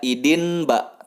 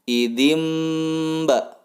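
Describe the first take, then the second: First: The nasal before the b is an n. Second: The nasal before the b is an m. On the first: The speaker calls it wrong. "Tidak dibaca idin ba" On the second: The speaker calls it right. "nunnya masuk ke bunyi M"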